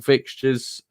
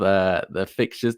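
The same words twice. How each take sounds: First: Said in the usual way. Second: Real voice crack on "fixtures" as it rises. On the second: Real, not acted. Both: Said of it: "That was a bit of a voice crack".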